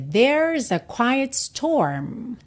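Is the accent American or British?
American. It is said with an American accent.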